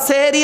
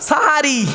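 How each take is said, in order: First: The first syllable has an e vowel. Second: The first syllable has an a vowel. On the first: Magic. The speaker calls it wrong. "সেহেরি নয় শব্দটা" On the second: The meal before dawn. The speaker calls it right. "দন্তেশয় আকার"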